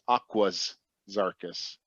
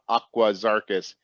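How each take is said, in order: First: There is an s sound after 'Aqua'. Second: There is no s sound after 'Aqua'. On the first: The speaker calls it right. "there's an S on the end of it" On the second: The speaker calls it wrong. "it's not Aquazarchus"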